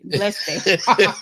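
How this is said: It is said sarcastically, with a mocking edge.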